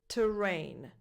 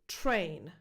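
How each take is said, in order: First: The T and R are heard as separate sounds. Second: The T and R blend into one sound. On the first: The speaker calls it wrong. "Here we hear the T and the R as two separate consonants" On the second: The speaker calls it right. "In this one, the T and the R blend and coalesce"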